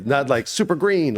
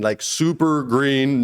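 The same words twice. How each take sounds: First: Said in the usual way. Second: Super green drawn out slowly; stretched super green. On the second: Shown as a demonstration.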